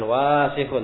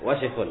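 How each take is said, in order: First: The first vowel is drawn out long. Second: The first vowel is kept short. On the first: The speaker calls it wrong. "Bukan wasikhun" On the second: The speaker calls it right. "tidak panjang dibaca, tapi wasikhun"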